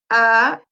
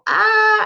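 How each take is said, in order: First: The pitch falls from high to low. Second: The pitch stays high and level. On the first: "El segundo tono va de arriba abajo" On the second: "hay un tono que es agudo, que lo hacemos como ah hasta arriba"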